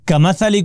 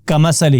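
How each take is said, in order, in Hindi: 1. बीच वाला व्यंजन नरम 'th' की आवाज़ है। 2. बीच वाला व्यंजन साफ़ 's' की आवाज़ है। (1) "हम सा को सीन पढ़ते हैं" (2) "हम सा को सीन पढ़ते हैं"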